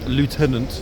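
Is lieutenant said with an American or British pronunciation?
American. The word is said with an American pronunciation. The speaker calls it wrong. "I got the American pronunciation"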